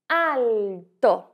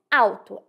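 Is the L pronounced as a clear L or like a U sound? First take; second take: clear L; U sound. First: The L is pronounced as a clear L. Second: The L sounds like a U vowel. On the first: "Já em italiano isso não acontece. Em italiano nós dizemos alto" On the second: "em português nós dizemos alto. Este L tem um som de U"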